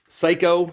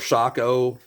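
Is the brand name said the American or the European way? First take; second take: American; European. First: The name is said the local American way. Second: The name is said the European way.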